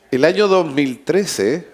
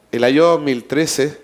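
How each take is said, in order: Both takes have the same delivery.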